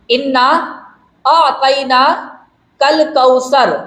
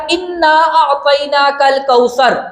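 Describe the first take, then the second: First: Slow, with a pause after اِنَّا; slow recitation. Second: Said in the usual way. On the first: Shown as a demonstration. Teacher showing where the verse starts, slow and spaced. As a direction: lay out اِنَّا ... أَعْطَيْنَاكَ الْكَوْثَرَ slowly, word by word. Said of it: "اب دیکھیں". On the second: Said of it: "سورت ہی اسی لفظ سے شروع ہو رہی ہے".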